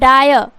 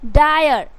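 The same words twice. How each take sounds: First: The final r is pronounced fully. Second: The final r is weak, nearly silent. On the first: "आर से र" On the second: "यहाँ पे guys आधा र होगा"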